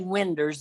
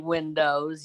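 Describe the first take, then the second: First: The word ends with an 'er' sound. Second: The word ends with an 'oh' sound. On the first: The speaker calls it wrong. "don't say winders anymore" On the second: The speaker calls it right. "say windows"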